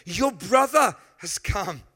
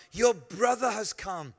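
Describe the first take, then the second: First: Slow, emphatic repeat landing hard on "brother"; stress on brother. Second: Said in the usual way. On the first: Shown as a demonstration. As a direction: punch "brother" with a big pitch swoop.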